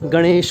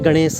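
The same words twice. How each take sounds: First: The word ends with an 'sh' sound. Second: The word ends with an 's' sound. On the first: This is the standard Hindi form. "उसमें हम गणेश नहीं बोलते" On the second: This is how Garhwali speakers say it. "हम शाह का use कम ही करते हैं"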